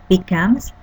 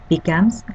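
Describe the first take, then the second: No difference in how they are said.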